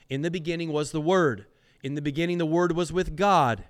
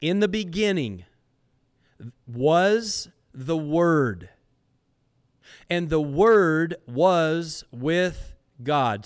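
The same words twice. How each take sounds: First: Fast, quick run through "In the beginning was the Word"; brisk recap. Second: Slow and loud, weigh each phrase of "In the beginning was the Word"; solemn emphatic reading. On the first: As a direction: rattle it off as a reminder. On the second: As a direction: read it as a grand proclamation, with long pauses. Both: Real, not acted.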